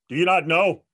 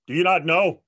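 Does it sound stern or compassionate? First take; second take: stern; stern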